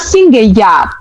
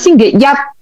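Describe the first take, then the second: First: The last syllable carries the tone meaning Sunday. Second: The last syllable carries the tone meaning Monday. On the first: The word means Sunday. "kalau hari Minggu itu kan ngomongnya" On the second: The word means Monday. "Kalau hari Senin ngomongnya"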